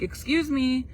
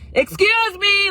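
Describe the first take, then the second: First: It is said at a normal, polite volume. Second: It is said loudly, like a yell. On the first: A polite attempt to get attention. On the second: An angry scolding, as if someone is in trouble.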